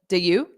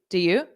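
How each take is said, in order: First: The second word is a full 'you'. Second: The same.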